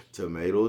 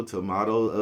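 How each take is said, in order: First: Tomato said with "may": to-MAY-to; tomato with the long A of "day"; tomato, tuh-MAY-toe. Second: Tomato said with "ah": to-MAH-to; tomato with the open A of "father"; tomato, tuh-MAH-toe. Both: Shown as a demonstration.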